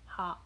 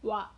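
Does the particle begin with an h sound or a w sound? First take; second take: h sound; w sound. First: The particle begins with an h sound. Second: The particle begins with a w sound. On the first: The speaker calls it wrong. "not ha" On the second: The speaker calls it right. "The particle wa is pronounced wa"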